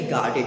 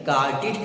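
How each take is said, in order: First: गार्डेड said with an open "ed" at the end; wrong ending. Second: गार्डेड said with a short "id" at the end; correct ending. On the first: Teacher showing students the wrong गार्डेड. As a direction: say गार्डेड as "gar-ded", the form to avoid. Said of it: "न कि". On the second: Teacher modelling the right गार्डेड for students. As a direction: say गार्डेड as "gar-did". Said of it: "गार्डेड कहेंगे". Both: Shown as a demonstration.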